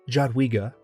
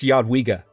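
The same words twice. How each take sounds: First: It begins with a hard English J sound. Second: It begins with a soft J sound. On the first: The speaker calls it wrong. "It's not Jadwiga, unless you're just a native English speaker" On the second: The speaker calls it right. "it's a soft J"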